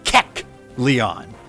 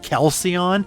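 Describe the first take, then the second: First: The name begins with a 'kek' sound. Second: The name begins with a 'kal' sound. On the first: The speaker calls it right. "It is Kecleon" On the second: The speaker calls it wrong. "my brain sees it as like Calcion, and it is not"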